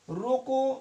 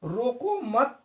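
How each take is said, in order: First: "रोको" alone, held up, then a clear break; pause after रोको. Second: "रोको मत" run together as one phrase, then a break; group "मत" with "रोको" and stop after it; pause after मत. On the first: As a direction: stop right after "रोको", as at a comma. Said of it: "comma लगा है". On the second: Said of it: "यहाँ विराम चिन्ह लगा है". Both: Shown as a demonstration.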